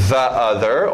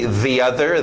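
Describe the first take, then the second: First: The word 'the' has a short 'uh' vowel. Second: The word 'the' has a long 'ee' vowel.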